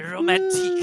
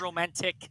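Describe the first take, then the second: First: It is said in a put-on foreign accent. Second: It is said in a plain, ordinary accent.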